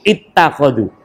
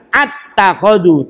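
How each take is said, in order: First: The word begins with an 'i' vowel. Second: The word begins with an 'a' vowel. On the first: The speaker calls it right. "hamzahnya di kasroh" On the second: The speaker calls it wrong. "Tidak attakhadhu"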